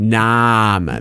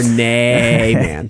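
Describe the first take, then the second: First: "Naaman" with a long open "ah" in the middle, NAH-man; Naaman pronounced. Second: "Naaman" said slowly as NAY-man; alternative pronunciation. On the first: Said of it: "it's like N A A man". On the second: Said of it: "Or Naaman". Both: Shown as a demonstration.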